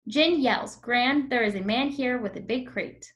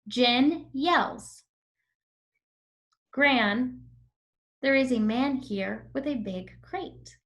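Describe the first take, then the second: First: The sentence runs on without pauses. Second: Short pauses break up the sentence. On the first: The speaker calls it wrong. "And now without the comma" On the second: The speaker calls it right. "Do you see how I paused whenever there was a comma?"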